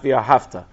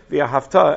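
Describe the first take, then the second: First: The stress is on the middle syllable. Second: The stress is on the final syllable. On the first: It is past tense: you loved. The speaker calls it wrong. "and not via hafta" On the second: It is a command: you shall love. The speaker calls it right.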